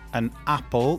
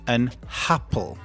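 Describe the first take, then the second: First: Apple starts directly with a vowel sound. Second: Apple starts with an added h sound. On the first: The speaker calls it right. "instead of saying an apple" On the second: The speaker calls it wrong. "they add an extra H sound before a vowel"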